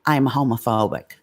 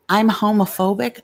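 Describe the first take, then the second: First: "I'm homophobic" low, falling to a full stop; deadpan echo statement. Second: "I'm homophobic?" rising at the end as a question; incredulous echo question. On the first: Streamer rebutting an accusation, deadpan falling "I'm homophobic". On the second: Streamer answering an accusation, incredulous "I'm homophobic?" rising. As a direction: throw "I'm homophobic?" back with a questioning rise. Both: Real, not acted.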